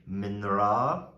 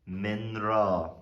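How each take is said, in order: The two takes are said the same way.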